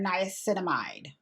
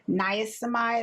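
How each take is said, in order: First: "niacinamide" in full, like "nye-a-sinamide"; corrected pronunciation. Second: "Niacinamide" with a syllable dropped, like "nye-a-simide"; old mispronunciation. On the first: Vlogger checking the word she looked up, corrected pronunciation. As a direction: sound out every syllable of "niacinamide": nye-a-sin-a-mide. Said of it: "I think it's niacinamide". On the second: Vlogger testing how she has been saying the word, mispronounced. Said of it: "I've been saying this word wrong". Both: Shown as a demonstration.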